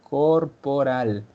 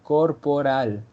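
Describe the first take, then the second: Both takes have the same delivery.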